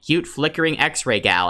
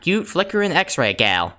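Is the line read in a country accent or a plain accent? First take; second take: plain; country. First: It is read in a plain, neutral accent. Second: It is read in a country accent.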